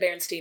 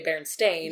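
First: The last syllable has no 'ay' vowel sound. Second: The last syllable has an 'ay' vowel sound. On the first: It follows the remembered spelling with E-I-N. "I've always said Berenstain" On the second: It follows the spelling with an A. "I would have been smart enough to say Berenstain, or at least, like, put a little more of an A sound"

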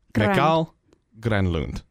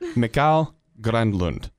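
Both takes have the same delivery.

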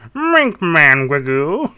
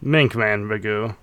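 First: It is said in a put-on character voice. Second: It is said in a natural speaking voice.

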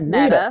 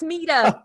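First: The first vowel sounds like 'eh'. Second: The first vowel sounds like 'ee'. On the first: This is how outsiders say the name. The speaker calls it wrong. "A lot of people call it Meta" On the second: This is how the name is properly said. The speaker calls it right. "No, it's Mita"

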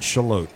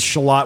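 First: The name is pronounced the local way. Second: The name is pronounced the way it is written. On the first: This is how residents say the name. "they pronounce it Shalott" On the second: This is how outsiders read the name. "it says Shalott. We say that"

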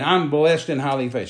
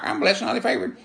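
First: It is said sincerely, from the heart. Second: It is said mechanically, like a squawking parrot.

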